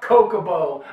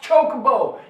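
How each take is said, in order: First: The word begins with a k sound. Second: The word begins with a ch sound. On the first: The speaker calls it wrong. "It's not Kokobo" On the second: The speaker calls it right. "No, it's not. It's Chocobo"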